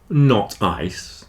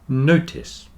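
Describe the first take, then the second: First: The stress falls on the second syllable. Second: The stress falls on the first syllable. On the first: The speaker calls it wrong. "not not ice" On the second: The speaker calls it right. "but notice"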